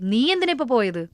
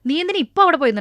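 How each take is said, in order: First: The stress falls on the first word, നീ. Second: The stress falls on the word ഇപ്പൊ. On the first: Someone else should have gone instead. "അത് വേറെ ആരെങ്കിലും പൊക്കോട്ടെ" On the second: The going could have waited until tomorrow. "നിനക്ക് നാളെ പോവായിരുന്നല്ലോ"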